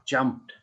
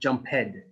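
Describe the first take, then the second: First: The ending is a single consonant, no extra syllable. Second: The ending is said as a separate syllable. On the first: The speaker calls it right. "Same as jump, jumped" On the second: The speaker calls it wrong. "not jump head"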